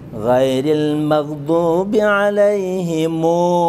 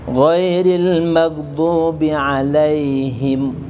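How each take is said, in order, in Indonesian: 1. Kata terakhir berakhir dengan bunyi mu panjang. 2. Kata terakhir berakhir dengan bunyi m biasa. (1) "mu-nya dibaca panjang" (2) "biasanya kita membaca"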